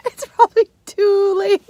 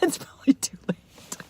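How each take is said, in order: First: Mock crying. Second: Laughing. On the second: Real, not acted. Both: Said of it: "Oh, wait".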